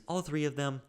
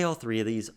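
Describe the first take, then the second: First: "all" said high and stressed. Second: Said in the usual way. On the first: Shown as a demonstration. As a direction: hit the word "all" clearly.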